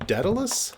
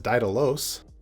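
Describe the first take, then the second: First: The name is said in an American way. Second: The name is said in a Greek-style way. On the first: "I think is how you pronounce it in America" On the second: "My limited knowledge of Greek would actually want to pronounce this as"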